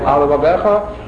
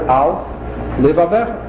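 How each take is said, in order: First: The two words merge with one L sound. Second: The two words are separated with a doubled L. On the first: The speaker calls it wrong. "you're going to be missing one lamed" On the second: The speaker calls it right. "you have to pronounce it Al, Lev Avecha. To pronounce a double lamed"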